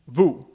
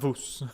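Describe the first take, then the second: First: It ends on the vowel, with no S sound. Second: It ends with an audible S sound. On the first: The speaker calls it right. "Don't pronounce the S in vous" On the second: The speaker calls it wrong. "not vous"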